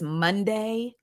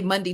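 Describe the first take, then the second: First: It is said in a Georgia Southern accent. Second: It is said in a South Jersey accent. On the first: "she's a Georgia peach" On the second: "I'm from South Jersey, so I say"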